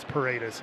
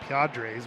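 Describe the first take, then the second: First: The name is said as Paredes. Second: The name is said as Padres. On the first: The speaker calls it right. "but then I know it's Paredes" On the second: The speaker calls it wrong. "I always want to say Padres, so I say Padres"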